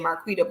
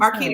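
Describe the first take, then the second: First: It is said with a New York accent. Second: It is said without a New York accent.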